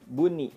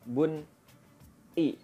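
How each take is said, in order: First: The nun and the vowel are joined smoothly. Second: The nun and the vowel are split apart. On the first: The speaker calls it right. "tapi buni" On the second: The speaker calls it wrong. "bacanya bukan bun i"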